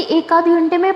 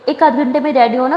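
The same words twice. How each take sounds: First: ایک آدھ گھنٹے میں repeated higher, rising in disbelief; incredulous echo. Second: Said in the usual way. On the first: Acted. Younger sister echoing the hour-long wait, higher incredulous rise. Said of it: "تو کہتی". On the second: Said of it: "کہتی".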